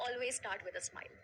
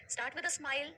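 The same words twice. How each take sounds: First: Said in the usual way. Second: "Start with a smile" pushed up and louder; emphatic repeat. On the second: Shown as a demonstration. Coach repeating advice to the audience, emphatic. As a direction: drive the point home, a touch higher and louder. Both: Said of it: "समझ रहे हो?".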